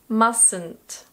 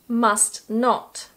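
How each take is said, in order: First: It is said as one contracted word. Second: It is said as two full words.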